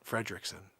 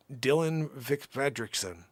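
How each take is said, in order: First: Fredrickson with the first R clearly said, Fred-rickson; corrected R. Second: Fredrickson said as Fedrickson, first R dropped; missed R. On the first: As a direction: put the R back into Fredrickson. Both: Shown as a demonstration. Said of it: "I missed an R there".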